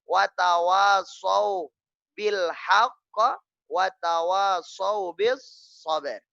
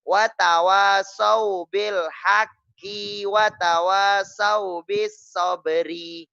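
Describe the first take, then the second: First: Words stop cleanly on final consonants. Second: Words end in an added i vowel. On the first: The speaker calls it right. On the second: The speaker calls it wrong.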